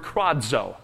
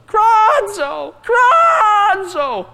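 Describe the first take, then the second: First: Said in the usual way. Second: Very high, loud squawked word; raven's cry. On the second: Shown as a demonstration. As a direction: screech it out like a raven. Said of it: "a cry of a raven".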